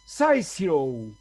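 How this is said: It is said with an English pronunciation. "un inglés lo pronunciaba así"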